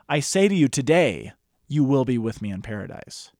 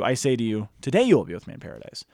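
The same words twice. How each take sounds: First: The pause comes after "today". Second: The pause comes before "today".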